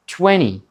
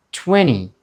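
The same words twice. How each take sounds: The two takes are said the same way.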